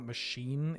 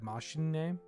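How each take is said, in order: First: The word ends without a final vowel sound. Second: The word ends with a pronounced final vowel. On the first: The speaker calls it wrong. "it's not machine" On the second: The speaker calls it right. "You pronounce the E, right?"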